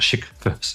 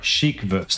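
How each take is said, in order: First: The first word sounds like 'shit'. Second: The first word does not sound like 'shit'. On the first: The speaker calls it wrong. "not chic verse. That sounds like shit verse" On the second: The speaker calls it right. "Sorry, chic verse"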